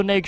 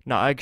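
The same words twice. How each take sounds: First: Naeg as one syllable, like "nayg"; first-guess pronunciation. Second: Naeg in two syllables, "nah-egg"; corrected pronunciation. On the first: Player first guessing the shrine name, Naeg as "nayg". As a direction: say Naeg to rhyme with vague. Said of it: "or Na". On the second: Player correcting the shrine name, Naeg as "nah-egg". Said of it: "not Naeg". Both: Real, not acted.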